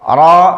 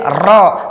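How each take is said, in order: First: The r has a short, light trill. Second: The r has a long, excessive trill. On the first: The speaker calls it right. "suara ra menjadi sempurna" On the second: The speaker calls it wrong. "Kalau berlebihan jadi ra"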